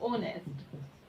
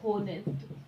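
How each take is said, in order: First: The word begins directly with a vowel sound. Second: The word begins with an audible h sound. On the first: The speaker calls it right. "इसे हम ऑनेस्ट बोलेंगे" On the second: The speaker calls it wrong. "होनेस्ट गलत pronunciation है"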